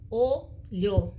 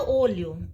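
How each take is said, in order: First: "olho" in two parts, o, then lho; split into syllables. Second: Said in the usual way. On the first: Shown as a demonstration. Teacher counting two syllables, "olho" said piece by piece. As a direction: separate "olho" with a clear gap after the o. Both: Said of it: "são duas sílabas".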